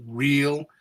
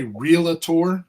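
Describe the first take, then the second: First: Realtor said in two syllables, real-tor; realtor, no extra vowel; correct pronunciation. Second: Realtor said as real-a-tor, extra vowel; added vowels. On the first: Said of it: "R E A L A T O R". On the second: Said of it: "it's spelled R E A L". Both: Shown as a demonstration.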